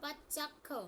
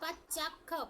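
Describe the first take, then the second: First: The 'ch' sound is doubled, with a half 'ch'. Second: The same.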